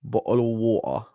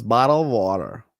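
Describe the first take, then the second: First: British "Bottle of water", the t dropped to a glottal stop and a soft r-less "wa-uh"; "Bottle of water" with British sounds, a little quieter; British pronunciation. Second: American "bottle of water" with a flapped t in "water" and a full r at the end; "water" as "wadder", with the r sounded; American pronunciation. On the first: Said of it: "the British pronunciation". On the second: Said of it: "or the American pronunciation". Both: Shown as a demonstration.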